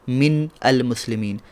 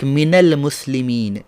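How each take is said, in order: First: Min ends in a bare 'n' with no vowel. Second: Min ends in an 'a' vowel joining the next word. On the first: The speaker calls it wrong. "instead of" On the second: The speaker calls it right. "we say like"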